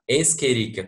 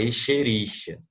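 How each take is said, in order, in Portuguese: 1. O 'ch' é pronunciado com um som forte de k. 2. O 'ch' é pronunciado com um som suave de sh. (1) "o C H que tem som de K é latim" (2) "tem gente que fala Escherichia"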